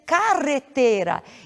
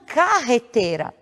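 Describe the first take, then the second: First: The R is trilled with the tongue tip. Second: The R is a guttural sound from the throat. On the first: The speaker calls it right. "a pronúncia dessa palavra deve ser carretera" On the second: The speaker calls it wrong. "e não carreteira"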